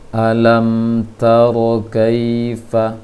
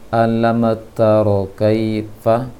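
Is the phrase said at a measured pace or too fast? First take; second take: measured; too fast. First: The phrase is said at a measured pace. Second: The phrase is rushed and said too fast. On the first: The speaker calls it right. "sekadar hak dari mim" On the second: The speaker calls it wrong. "terlalu cepat"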